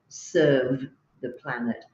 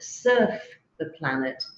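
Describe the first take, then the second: First: The first word ends with a V sound. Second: The first word ends with an F sound. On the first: The speaker calls it right. "instead of serve the planet" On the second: The speaker calls it wrong. "surf the planet instead of serve the planet"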